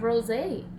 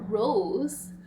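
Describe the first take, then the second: First: The word has two syllables, ending in 'ay'. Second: The word has one syllable, like 'rose'. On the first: "We have rosé or rose" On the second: "or rose"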